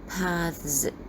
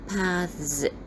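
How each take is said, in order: No difference in how they are said.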